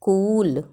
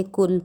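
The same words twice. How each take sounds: First: कूल with a drawn-out oo; long u. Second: कुल with a short, light u and no push; short unstressed u. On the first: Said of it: "बड़ा ऊ की मात्रा". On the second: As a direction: say कुल with a brief u, unforced. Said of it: "शब्द पे जोर नहीं देते हैं". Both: Shown as a demonstration.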